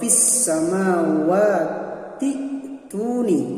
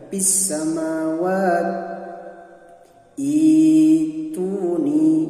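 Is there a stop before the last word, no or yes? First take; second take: no; yes. First: The words run together without a stop. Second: It stops, then restarts with an 'ee' sound.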